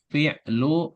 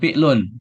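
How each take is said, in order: First: The word ends on a vowel without n. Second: The word ends with an added n sound. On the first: The speaker calls it right. "tapi fi'lu madin" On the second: The speaker calls it wrong. "Bukan fi'lun"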